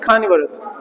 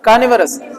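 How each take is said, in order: First: The first consonant is said with a breath. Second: The first consonant is said without a breath. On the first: The speaker calls it right. "थोड़ा ह के साथ में" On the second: The speaker calls it wrong. "क को ऐसा नहीं बोलना"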